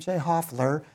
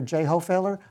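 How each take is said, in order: First: The surname is said with two syllables. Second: The surname is said with three syllables. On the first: It is the family's own pronunciation. The speaker calls it right. "we pronounce it Hoffler" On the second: It is read off the spelling. The speaker calls it wrong. "when people see it spelled, they say"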